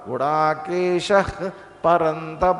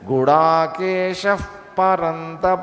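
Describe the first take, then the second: First: An h-like breath comes before the p sound. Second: An f-like breath comes before the p sound. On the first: "విసర్గ పలకాలి, పా పలకాలి" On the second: "ఆ అఫ్ సౌండ్ని మనం కొంచెం వాడుకోవచ్చు"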